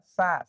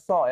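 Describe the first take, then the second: First: The vowel is open, like 'a'. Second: The vowel is rounded, like 'o'. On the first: The speaker calls it right. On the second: The speaker calls it wrong.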